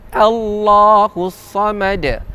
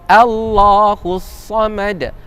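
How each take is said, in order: The two takes are said the same way.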